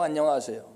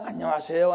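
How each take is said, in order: First: Hello with a falling tune; a settled, polite hello that drops at the end; friendly greeting. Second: Friendly hello with a rising tune; a bright hello that lifts at the end; sing-song greeting rising up; cheerful greeting. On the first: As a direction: warm bow-style greeting falling down. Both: Retold or imitated. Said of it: "이쁘게 인사하고 반갑게".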